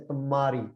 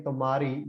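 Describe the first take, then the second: First: Tumari with the ma held doubled and heavy; double stress on ma. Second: Said in the usual way. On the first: Shown as a demonstration. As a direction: lean hard on the ma in tumari, as if written twice. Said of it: "the ma becomes, like, double as heavy". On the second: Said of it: "you have to emphasize that word".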